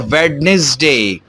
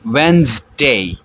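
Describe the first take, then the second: First: The middle d sound is pronounced. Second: The middle d sound is left out. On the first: The speaker calls it wrong. "अमूमन लोग उसको पढ़ते हैं वेडनेसडे" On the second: The speaker calls it right. "इसकी correct pronunciation है वेंसडे"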